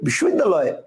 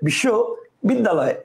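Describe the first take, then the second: First: The word is said in one unbroken part. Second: The word is broken into two separate parts. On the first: "একবারেই বলবে ... কয়টা হলো একটা" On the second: "কয়টা হলো দুইটা"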